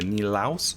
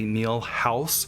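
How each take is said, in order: First: No H sound is heard before the second part. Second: An H sound is heard before the second part. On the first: The speaker calls it right. "as opposed to" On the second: The speaker calls it wrong. "I may add an H where an H doesn't belong"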